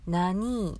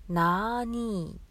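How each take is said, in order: First: 「なに？」を伸ばさずに短く切って言う; 「なに？」をさっと短く問いかける. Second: 「なーに？」の「な」をゆっくり長く伸ばす; 「なーに？」をとてもゆっくり引き伸ばして言う; 伸ばした「なーに？」. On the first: (伸ばさない短い「なに？」) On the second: (「なーに？」を長く伸ばす) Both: Shown as a demonstration. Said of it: "っていうのが入ってて".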